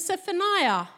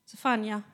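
First: The name is said with an English pronunciation. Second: The name is said with a Swedish pronunciation. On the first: "do you say that like that in English?" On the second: "in Swedish"

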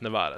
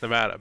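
First: It is said following the word's Spanish origin. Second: It is said the way the state's residents say it. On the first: This follows the word's Spanish origin. "the linguistic history of the word is Nevada" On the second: This is how the people of the state say it. "they definitely think it's Nevada"

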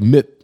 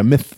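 First: The word ends in a t sound. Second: The word ends in a th sound. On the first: The speaker calls it wrong. "or I stop at the T, like mitt" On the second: The speaker calls it right. "Yeah, myth"

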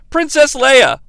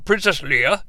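First: The name is said in a plain, ordinary pronunciation. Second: The name is said mimicking an older man's pronunciation.

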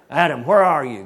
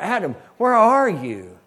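First: The question is said in an angry, demanding tone. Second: The question is said as a grieving, heartbroken cry. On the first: The caller is furious at the one hiding. The speaker calls it wrong. "he was angry" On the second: The caller grieves a broken relationship. The speaker calls it right. "it was a cry from the Father"

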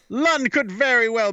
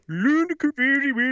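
First: It is read in an ordinary English accent. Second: It is read in a mock Swedish accent.

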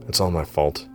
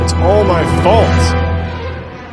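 First: It is said quietly, under the breath. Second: It is screamed at full volume.

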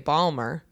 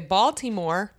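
First: The word is squeezed into two syllables. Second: The word is said with all three syllables. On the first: "some people say Balmer" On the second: "Some say Baltimore"

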